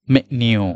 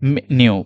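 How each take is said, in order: The two takes are said the same way.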